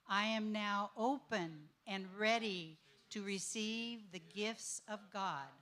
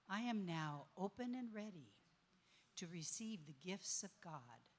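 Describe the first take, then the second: First: It is said with lively enthusiasm. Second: It is said softly and inwardly, from the heart.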